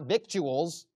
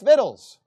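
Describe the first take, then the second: First: A 'k' sound is heard in the middle. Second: No 'k' sound is heard in the middle. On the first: The speaker calls it wrong. "the way you pronounce this word's incorrect. You know? It's not victuals" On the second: The speaker calls it right. "it's vittles"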